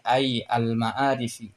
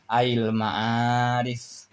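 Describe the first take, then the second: First: The first word is said apart from 'al'. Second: The first word merges with 'al' into 'ail'. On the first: The speaker calls it right. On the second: The speaker calls it wrong.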